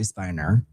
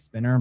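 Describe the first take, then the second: First: The first vowel sounds like the one in 'pine'. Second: The first vowel sounds like the one in 'pin'. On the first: This is the name's actual pronunciation. The speaker calls it right. "but I think it's actually Spiner" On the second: This is how most people say the name. The speaker calls it wrong. "I think people pronounce it Spinner"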